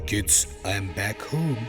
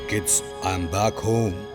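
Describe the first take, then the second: First: The voice is soft and gentle. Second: The voice is rough and harsh.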